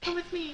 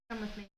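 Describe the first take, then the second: First: It is said in a small, little voice. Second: It is said in a normal voice.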